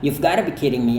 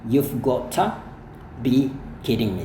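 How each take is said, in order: First: It is said with the reduced gotta. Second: It is said with full got to.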